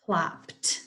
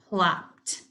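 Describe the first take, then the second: No difference in how they are said.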